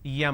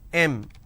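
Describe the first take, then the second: First: The letter name starts with a y glide. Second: The letter name starts directly with a vowel. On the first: The speaker calls it wrong. "in southern India, everybody pronounces that as" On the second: The speaker calls it right. "It's pronounced as"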